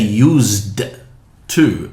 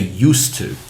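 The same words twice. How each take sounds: First: The sound before 'to' is a voiced z. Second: The sound before 'to' is a voiceless s. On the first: The speaker calls it wrong. "we don't say used to anymore" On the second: The speaker calls it right. "We say used to. Why? It's because of the ta sound"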